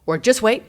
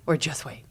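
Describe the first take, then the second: First: Louder, higher, pushed "just wait"; the insistent version of "Or just wait"; emphatic version. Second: Said in the usual way. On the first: Retold or imitated. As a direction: punch "just wait" loud and high. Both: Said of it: "Those are, like, the two versions of it".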